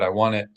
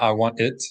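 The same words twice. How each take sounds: First: The final T is replaced by a glottal stop. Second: The final T is fully released as T. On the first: The speaker calls it right. "but I want it. That is the sound of glottal stop" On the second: The speaker calls it wrong.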